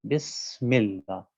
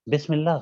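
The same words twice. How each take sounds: First: The s sound has a whistling hiss. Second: The s sound is plain, without whistling. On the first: The speaker calls it right. "यूँ पढ़ा जाएगा" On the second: The speaker calls it wrong. "गलत है"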